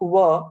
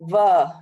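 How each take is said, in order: First: The first sound is made with rounded lips. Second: The first sound is made without rounded lips. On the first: The speaker calls it right. "make our mouth round when we speak "were,"" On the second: The speaker calls it wrong. "if we do not make our mouth round ... it mostly comes like "were.""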